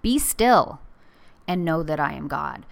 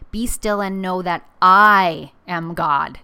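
First: The word 'still' is stressed. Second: The word 'I' is stressed. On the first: It is a command to be still. "So be still, like a command from God" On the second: God is the higher power, not the listener. "It's also an ego check for me"

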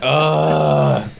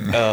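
First: It is said much louder. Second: It is said fairly quietly.

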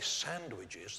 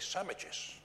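First: The word has a refined, standard pronunciation. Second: The word has a casual, nonstandard pronunciation. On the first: This is the form that people who speak well use. "They don't say sandwiches" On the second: This is the form used by people judged not to speak well. "they say sandwiches"

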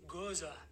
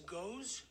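First: The word is said as two syllables. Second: The word is said as one syllable. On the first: The speaker calls it right. "It's actually goza" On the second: The speaker calls it wrong. "Some people say it's goes"

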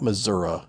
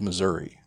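First: The word ends with an 'uh' sound. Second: The word ends with an 'ee' sound. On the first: The speaker calls it wrong. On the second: The speaker calls it right.

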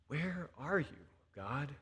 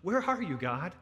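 First: The question is asked in a sad voice. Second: The question is asked in a scared voice. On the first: The asker feels grief and despair. "sometimes we're just downright sad" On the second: The asker feels afraid and threatened. "sometimes we're scared because the world is shaking up around us"

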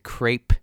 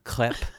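First: It is said the Pittsburgh way. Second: It is said the French way.

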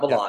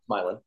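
First: The name is said the usual, non-local way. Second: The name is said the local way. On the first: This is how outsiders say the town's name. The speaker calls it wrong. "It's not Milan" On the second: This is how the town's residents say the name. The speaker calls it right. "They pronounce it a little bit differently"

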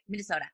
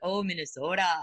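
First: It is said fast with short O's. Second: It is said slowly with long drawn-out O's.

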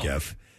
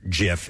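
First: The word begins with a hard G sound. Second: The word begins with a soft G sound. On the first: "I call it GIF" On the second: "as he liked to call it"

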